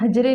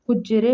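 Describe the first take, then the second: First: The first vowel is 'a', with a single 'j'. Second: The first vowel is 'u', with a doubled 'j'. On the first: The speaker calls it wrong. "हजरे नहीं होता है" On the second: The speaker calls it right. "हुज्जरे होता है"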